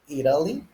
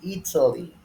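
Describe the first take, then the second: First: The middle T sounds like a quick R. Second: The middle T is a clear T sound. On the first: "Americans, they use it like an R" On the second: "British accent, you can say Ita, Ita, like a T"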